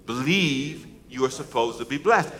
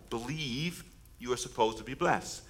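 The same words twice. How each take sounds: First: Said in the usual way. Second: Soft, slow line for the crowd to repeat; quiet lead line. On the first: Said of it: "Come on". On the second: Shown as a demonstration. Preacher to congregation, slow and soft. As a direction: say it softly, setting up the call. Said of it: "Can you say that with me".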